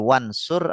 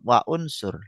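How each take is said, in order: First: The vowels merge and the glottal stop is dropped. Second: The glottal stop before 'unsur' is kept. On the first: "jadi wansur" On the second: "tetap wa unsur"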